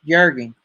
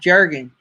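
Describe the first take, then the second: First: The name begins with a Y sound. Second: The name begins with a J sound. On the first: The speaker calls it right. "with the Y sound instead of the J sound" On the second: The speaker calls it wrong. "It's not"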